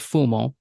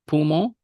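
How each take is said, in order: First: The word begins with an F sound. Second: The word begins with a P sound.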